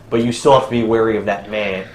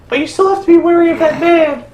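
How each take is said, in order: First: It is said in the speaker's ordinary voice. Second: It is said in a put-on character voice.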